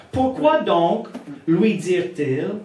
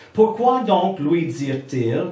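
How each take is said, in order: Both takes have the same delivery.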